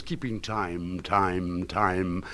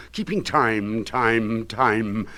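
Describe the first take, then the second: First: The refrain dropped to a soft echo. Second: Said in the usual way. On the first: Acted. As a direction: fade it like a distant echo. Same refrain echoed quietly.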